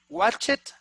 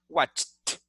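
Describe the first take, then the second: First: The ending does not sound like a t. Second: The ending sounds like a plain t. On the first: The speaker calls it wrong. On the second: The speaker calls it right. "like a t"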